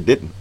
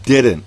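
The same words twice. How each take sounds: First: The middle D sound is dropped or softened. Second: The middle D sound is clearly pronounced. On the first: This is how people in the local area say it. "down here we say didn't" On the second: This is how a speaker from another district says it. "she said the word didn't"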